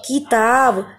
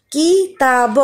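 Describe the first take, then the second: First: Said in the usual way. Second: "किताब" broken into separate syllables; sounded out. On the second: Shown as a demonstration. Teacher revises short vowel words, sounded out. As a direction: say "किताब" bit by bit, each sound apart.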